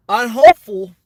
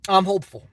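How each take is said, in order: First: Hopeful belted out loud like a campaign rally; loud mock-presidential emphasis. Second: Said in the usual way. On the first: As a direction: boom it out to the crowd. Repeats phrase, second much louder.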